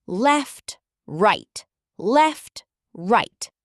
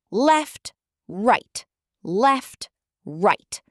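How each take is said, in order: Both takes have the same delivery.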